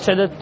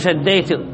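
First: Two separate d sounds with no y sound. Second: The d sounds merge and a y sound follows. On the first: The speaker calls it right. "الياء لا يأتي بها ويفك الإدغام" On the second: The speaker calls it wrong. "لا تزيد ياء، قل شديت"

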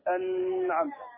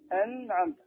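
First: The n sound flows on and is prolonged. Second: The n sound is held moderately, neither stopped nor flowing. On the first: The speaker calls it wrong. "ولا نقول أنعمت، هذه رخاوة" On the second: The speaker calls it right. "النون من صفاتها البينية، هذه التي نطبقها الآن"

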